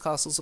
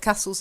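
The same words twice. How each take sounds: First: The word is said in a posh way. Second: The word is said in a plain way. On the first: "I tend to say castles because castles are posh" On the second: "castles is also correct"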